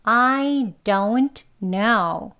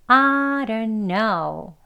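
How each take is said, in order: First: "I don't know" slow and careful, each sound crisp; dictionary reading. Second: "I don't know" run together as a ran na; native reduced speech. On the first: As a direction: read "I don't know" exactly as written. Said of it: "발음 소리대로 읽어보면요". (발음 기호대로 또박또박) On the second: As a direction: blur it into one quick a-ran-a. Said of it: "하고 발음이 되겠죠". (원어민식 줄인 발음) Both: Shown as a demonstration.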